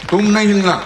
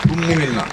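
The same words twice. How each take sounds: First: Higher-pitched, firm repeated command; insistent order. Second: Said in the usual way. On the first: Real, not acted. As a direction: order them firmly to stay put. Repeats order more forcefully to someone. (ज़ोर देकर, ऊँचे सुर में हुक्म)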